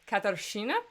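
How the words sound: The name is said with a Czech-style r sound. The speaker calls it right. "the more accurate pronunciation was like Katarzyna"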